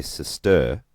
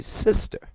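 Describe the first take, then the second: First: "sister" wrongly stressed on its last syllable, sis-TER; stress on second syllable. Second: "sister" stressed on its first syllable, SIS-ter. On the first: Teacher showing how we never say it, "sister" stressed as sis-TER. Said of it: "We never say sister". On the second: Teacher showing where the accent lies, "sister" stressed as SIS-ter. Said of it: "we say sister". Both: Shown as a demonstration.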